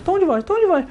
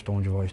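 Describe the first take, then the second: First: Much higher, squeaky top of the range; high tone take. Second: Much lower and softer, sunk down; low tone take. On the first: Host showing his cohost a high-pitched take of the phrase. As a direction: jump the pitch way up on tom de voz. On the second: Host showing his cohost a low-pitched take of the phrase. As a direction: drop the pitch low on tom de voz. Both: Shown as a demonstration.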